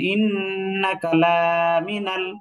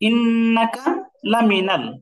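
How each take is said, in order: First: The vowel in 'la' is drawn out long. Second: The vowel in 'la' is short. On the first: It means no. The speaker calls it wrong. "কেউ যদি এটাকে টান দিয়ে বসে" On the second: It means certainly. The speaker calls it right. "এই হরকতে কি আমি টান দিতে পারবো এই লামে? পারবো না।"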